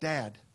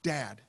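No difference in how they are said.

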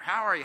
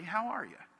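First: It is said quickly, in a rush. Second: It is said slowly and attentively.

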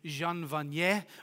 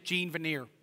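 First: The name is pronounced the French way. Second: The name is pronounced the English way. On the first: It comes across as pretentious. "I think French-Canadian, actually. And so the name should be Jean Vanier or something like that" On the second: It comes across as unpretentious. "So the person's name is Jean Vanier"

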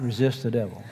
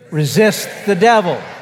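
First: It is said weakly, without force. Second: It is said forcefully, with fire. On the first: The speaker does not really mean it. The speaker calls it wrong. "say it like you mean it, not resist the devil" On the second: The speaker means it with authority. The speaker calls it right. "See the fire in"

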